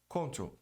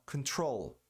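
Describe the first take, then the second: First: The stress falls on the first syllable. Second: The stress falls on the second syllable. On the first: The speaker calls it wrong. "A maioria das pessoas pronuncia control. Muito feio" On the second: The speaker calls it right. "A tônica é troll"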